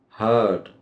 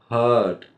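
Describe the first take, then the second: Both takes have the same delivery.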